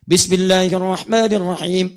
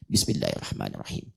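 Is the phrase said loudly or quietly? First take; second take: loudly; quietly. First: It is said loudly and clearly, for all to hear. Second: It is said very quietly, almost under the breath. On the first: It is recited aloud for others to hear. "Kan keras-keras seperti yang lain. ... Itu jahar" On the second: It is recited silently, for oneself only. "saya bacanya sir, bukan jahar. Dekatkan sama mik"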